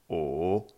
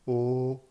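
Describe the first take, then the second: First: It is said with the third tone. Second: It is said with the first tone.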